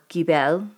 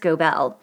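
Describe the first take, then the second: First: The name is pronounced the German way. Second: The name is pronounced the English way.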